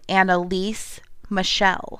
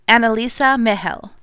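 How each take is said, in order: First: The name is said with an American pronunciation. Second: The name is said in its original-style pronunciation. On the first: This is how Americans say the name. "people who are from the USA" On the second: This is how the person herself said her name. "she pronounces her name"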